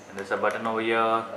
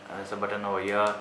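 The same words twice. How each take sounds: The two takes are said the same way.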